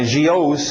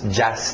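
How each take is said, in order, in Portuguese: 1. A terminação é dita em duas sílabas, 'jee-os'. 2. A terminação é dita em uma sílaba, 'jus'. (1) "Não é gios" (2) "cuidado com esse final"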